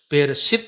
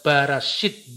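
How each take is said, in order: First: The first syllables use an 'e' vowel. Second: The first syllables use an 'a' vowel. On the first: This is the standard reading of the word. "Misalnya Bereshit itu" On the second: This is the variant reading of an ancient community. "dibaca Barashit"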